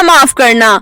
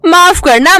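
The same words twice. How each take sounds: First: Said in the usual way. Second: माफ करना with a high mocking rise; sarcastic sorry to Kokila; mock apology. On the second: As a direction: pretend to take it back, sarcastically.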